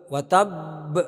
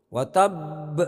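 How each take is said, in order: The two takes are said the same way.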